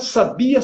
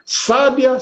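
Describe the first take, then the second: First: The stress is on the middle syllable. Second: The stress is on the first syllable.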